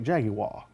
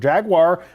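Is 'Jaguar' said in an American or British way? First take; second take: British; American. First: The word is said in a British way. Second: The word is said in an American way.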